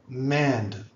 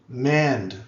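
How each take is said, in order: No difference in how they are said.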